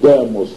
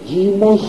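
First: The first vowel sounds like 'e'. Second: The first vowel sounds like 'ee'. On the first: This is the ancient Greek pronunciation. "не «демос»" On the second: This is the medieval Greek pronunciation. "Это стало произноситься как «ито», поэтому не «демос», а «димос»"

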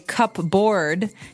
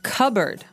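First: It is said as 'cup' plus 'board'. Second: It is said as 'cubberd', without the p. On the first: The speaker calls it wrong. "you might want to say cupboard because it's cup" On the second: The speaker calls it right. "The word is pronounced cupboard"

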